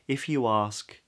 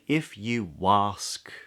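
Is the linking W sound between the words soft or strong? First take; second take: soft; strong. First: The linking W sound is soft and light. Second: The linking W sound is strong and exaggerated. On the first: The speaker calls it right. "It's quite soft" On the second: The speaker calls it wrong. "Don't say if you ask me, you'll sound silly"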